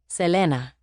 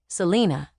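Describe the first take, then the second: First: The name is said with a Spanish pronunciation. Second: The name is said with an English pronunciation. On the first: "instead of" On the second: "pronounced the Anglo way"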